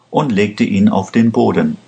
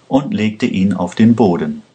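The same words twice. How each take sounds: The two takes are said the same way.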